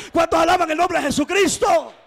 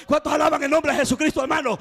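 First: High, loud preacher's shout for praise; full-voice shout of praise; shouted call. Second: Fast rousing call to the church; quick, loud call for praise; preacher's call. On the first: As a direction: raise the church to its feet. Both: Real, not acted.

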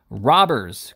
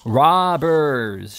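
First: Loud cry at usual pitch; raised-voice outburst, short of a full shout; indignant cry. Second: Loud, higher, drawn-out shout; long accusing yell from a window; indignant shout. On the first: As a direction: cry out the accusation. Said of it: "cried Mister Pickwick". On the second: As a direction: holler it after departing enemies. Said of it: "shouted Mister Pickwick". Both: A narrator's reading.

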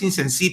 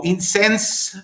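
First: 'Incensi' con el acento en la última E; Incensi con acento final. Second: 'Incense' terminado en consonante, sin E final acentuada; Incense dicho en inglés. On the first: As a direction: remata 'Incensi' cargando la E final. ('Incensi' con la E final tónica) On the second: ('Incense' pronunciado como en inglés) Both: Shown as a demonstration. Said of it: "tiene acento en la última E".

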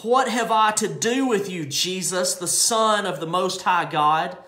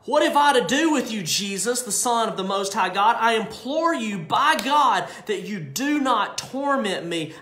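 First: Louder demon cry to Jesus; the demon cries out at Jesus, moderately loud. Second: High, loud pleading cry; the demon shouts and begs not to be tormented. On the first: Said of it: "He cried out with a loud voice". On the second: Demon crying out to Jesus, high and loud. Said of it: "He cried out". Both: Acted.

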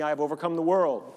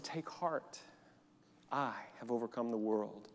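First: Louder, clear call for the church to echo; leading a repeat-after-me. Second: Soft, quiet scripture words; hushed quoting Jesus. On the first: Shown as a demonstration. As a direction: say it out for all to repeat. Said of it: "Can you repeat that after me?". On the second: Acted. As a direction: say it gently, as Jesus' promise. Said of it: "But Jesus said".

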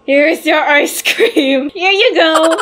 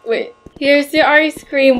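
First: Slow, beaming and higher; big smile voice. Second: Said in the usual way. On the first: Shown as a demonstration. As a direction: serve it with an exaggerated grin. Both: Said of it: "my smile's not big enough".

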